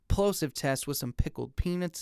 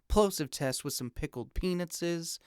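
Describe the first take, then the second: First: The deepest bass is cut a little. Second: Much more of the low bass is cut. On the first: "Now here is the fifty hertz high pass filter" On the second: "And now here's the one hundred twenty hertz high pass filter"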